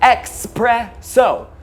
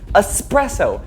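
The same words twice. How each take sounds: First: It is said with an x sound before p. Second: It is said with an s sound before p. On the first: The speaker calls it wrong. "some of you have the audacity to pronounce it with an X" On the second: The speaker calls it right. "until this word is spoken correctly"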